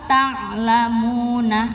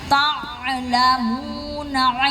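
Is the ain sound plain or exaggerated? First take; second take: plain; exaggerated. First: The ain sound is said plainly. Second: The ain sound is overdone and exaggerated. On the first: The speaker calls it right. "Cukup lau ta'lamuna" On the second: The speaker calls it wrong. "enggak usah ta'lamuna ilmal gitu"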